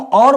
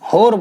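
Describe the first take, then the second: First: It starts with a vowel, no h. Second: It starts with an h sound. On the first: This is the usual standard form. "हम और बोलते हैं normally" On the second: This is the Khari Boli dialect form. "होर बोलते हैं इसको"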